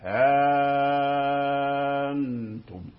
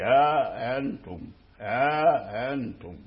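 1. الحركة بعد 'ha' ممدودة جدًا. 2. الحركة بعد 'ha' متوسطة الطول. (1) "فيكون هذا من مد الإشباع" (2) "ها أنتم بالطبيعي"

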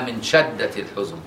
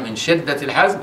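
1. الكلمة فيها 'a' بعد الشين. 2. الكلمة فيها 'i' بعد الشين. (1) "والتانية مفتوحة" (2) "الأولانية مكسورة"

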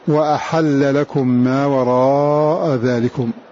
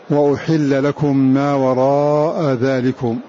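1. يبدأ الفعل بفتحة، وبعد الحاء فتحة. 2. يبدأ الفعل بضمة، وبعد الحاء كسرة. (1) "بفتح الهمزة والحاء" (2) "بضم الهمزة وكسر الحاء"

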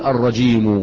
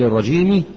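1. تنتهي الكلمة بحركة 'u' قصيرة. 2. تنتهي الكلمة بحركة 'i' قصيرة. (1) "فنقول الرجيم" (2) "بدل الرجيم"

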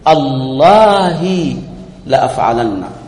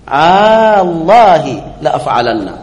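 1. حركة الهمزة الأولى مقطوعة قصيرة. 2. حركة الهمزة الأولى ممدودة طويلة. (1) "ويجوز أن تقطع الهمزة فتقول" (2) "فمده أن تقول ... هذا مد"

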